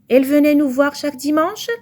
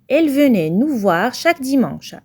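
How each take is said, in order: First: The voice rises at the end. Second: The voice falls at the end.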